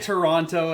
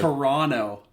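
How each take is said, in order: First: The second T is clearly pronounced. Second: The second T is silent. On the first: The speaker is a tourist. The speaker calls it wrong. "everyone's gonna know you're not from Toronto" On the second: The speaker is a local. The speaker calls it right. "that's what we say it if we're from Toronto"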